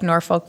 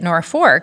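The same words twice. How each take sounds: First: The second syllable has no R sound. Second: The second syllable sounds like fork. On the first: This is how the eastern namesake is said. "like Norfolk, Virginia" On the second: This is how local residents say it. "people still continued to pronounce it Norfolk"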